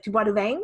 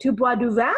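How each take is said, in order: First: Tu bois du vin with a Southern French twang, vin nasal and rising; Tu bois du vin in a Southern French accent. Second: Tu bois du vin said in clean standard French; plain standard French Tu bois du vin. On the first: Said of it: "But in the Southern France, it's like". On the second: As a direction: say Tu bois du vin the Paris way, crisp. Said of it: "like, you say". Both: Shown as a demonstration.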